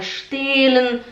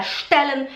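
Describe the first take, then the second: First: "stellen" with a long e, like "stehlen"; students' mistake. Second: "stellen" with a short, open e; correct short vowel. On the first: Teacher imitates her students' mistake, long-vowel "stellen". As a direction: stretch the first e of "stellen". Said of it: "elas falam". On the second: Teacher gives the intended word, short-vowel "stellen". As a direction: keep the e in "stellen" quick. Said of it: "Em vez de falar". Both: Shown as a demonstration.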